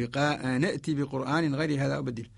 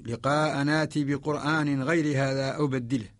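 First: نأتي with a short na and sounded hamza; Qalun reading. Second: لقاء ناتي with long naa, no hamza; Warsh sound. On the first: Teacher demonstrating Qalun, نأتي with the hamza sounded. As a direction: catch a glottal stop in نأتي before the t. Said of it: "برواية قالون نقول". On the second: Teacher demonstrating the Warsh sound, ناتي with long aa. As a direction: recite ناتي with a held aa in place of glottal stop. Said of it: "فهذه الرواية وهذا الصوت". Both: Shown as a demonstration.

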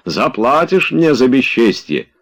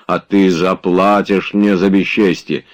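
First: Higher, called-out threat; parting shout. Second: Said in the usual way. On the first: A narrator's reading. Tarantyev crosses the yard threatening Oblomov, calling out. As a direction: call the threat back while walking off. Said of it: "кричал он, идучи по двору".

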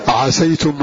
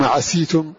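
First: عسيتم said ʕasaytum with open a; عسيتم with fatha on the sin. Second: عسيتم said ʕasītum with i; عسيتم with kasra on the sin. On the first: (عسيتم بفتح السين) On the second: (عسيتم بكسر السين) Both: Shown as a demonstration. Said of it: "بكسر وفتح".

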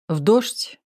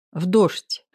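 First: "дождь" rising as a question; questioning echo. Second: "дождь" rounded off as a statement; confirming echo. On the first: Max checking she went out in rain, questioning rise on "дождь". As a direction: ask it back, lifting "дождь" at the end. Question, then answer echoing it. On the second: Girl confirming she went in rain, "дождь" as a plain answer. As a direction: confirm it simply, no question on "дождь". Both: A narrator's reading.

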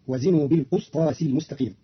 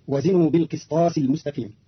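First: بالقسطاس said "bil-qustas"; بالقسطاس with "qus" in place of "qis"; damma on qaf. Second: Said in the usual way. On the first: Shown as a demonstration. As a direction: give بالقسطاس an u after the qaf. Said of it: "بضم القاف". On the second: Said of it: "قرأ قالون كلمة بالقسطاس".

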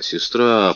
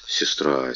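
First: Said in the usual way. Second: Беззвучный растерянный шёпот; пробормочи в смущении; бормоча. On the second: Acted. (растерянно шепчет, почти без голоса) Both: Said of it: "пробормотал король".

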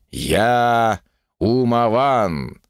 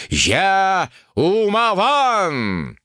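First: Drawn out, grand and slow; slow solemn proclamation. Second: Умаван drawn out much higher; triumphant proclamation. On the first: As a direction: stretch Умаван slowly, solemnly. Solemn self-naming. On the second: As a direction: cry Умаван high and long, in triumph. Climactic self-naming. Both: A narrator's reading.

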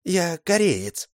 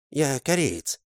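First: Gentle correction. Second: Lightly higher, calm Korean's voice; mild correction. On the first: The Korean gently correcting Mol, high and slow. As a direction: correct him politely, slowly. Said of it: "мягко поправил его азиат". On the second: The Korean correcting Mol once more, calmly higher. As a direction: repeat the correction patiently. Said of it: "снова поправил его азиат". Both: Acted.

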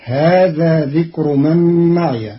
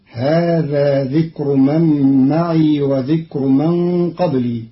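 First: معي with a final ya as ma'iya; Hafs reading ma'iya. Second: معي with an unvoweled ya as ma'ii; Qalun reading ma'ii. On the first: Teacher recites the Hafs form first, pron. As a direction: end معي with an open ya. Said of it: "قرأ قالون كلمة معي". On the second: Teacher shows Qalun's sukun on the ya, pron. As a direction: close معي on a long ii. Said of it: "بإسكان الياء". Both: Shown as a demonstration.

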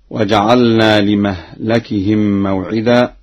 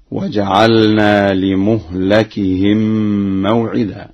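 First: Said in the usual way. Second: لمهلكهم recited "li-muhlakihim", u on mim, a on lam; slow recitation, saying لمهلكهم as li-muhlakihim; damma then fatha. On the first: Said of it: "بضم الميم". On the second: Shown as a demonstration. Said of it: "بضم الميم وفتح اللام هكذا".

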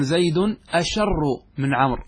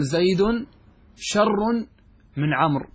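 First: "أشر" opening with a glottal "a" before the sh; hamza kept. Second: "شر" begun straight on the sh; hamza dropped. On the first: Teacher showing the form one does not say, hamza kept. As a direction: sound the hamza, "asharr", in "أشر". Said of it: "كما أنك لا تقول". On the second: Teacher giving the accepted comparative, hamza dropped. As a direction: say "شر" with no opening "a". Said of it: "تحذف الهمزة". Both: Shown as a demonstration.

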